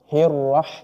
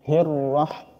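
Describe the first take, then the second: The two takes are said the same way.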